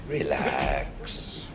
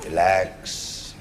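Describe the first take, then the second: First: Relax said much lower and softer, drawn out; lower, softer soothing relax. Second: Said in the usual way. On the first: Pretend. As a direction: sink the word Relax down low and soft.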